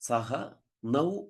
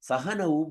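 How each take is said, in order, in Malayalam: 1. 'nau' ഒരു വേറിട്ട വാക്കായിട്ടാണ് പറയുന്നത്. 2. 'nau' 'saha'യോട് ചേർന്ന് ഒറ്റ വാക്കായിട്ടാണ് പറയുന്നത്. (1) "സാധാരണ നമ്മള് പറയാറുണ്ട്" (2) "സഹന എന്നൊരു പദത്തിന്റെ ഭാഗമായിട്ട് വരികയാണ്"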